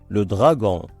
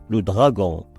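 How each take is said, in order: No difference in how they are said.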